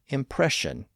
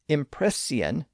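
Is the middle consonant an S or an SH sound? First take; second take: SH; S. First: The middle consonant is an SH sound. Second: The middle consonant is a plain S sound. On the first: This is the newer pronunciation. "the S H sound" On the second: This is the older pronunciation. "previously had a simple S sound"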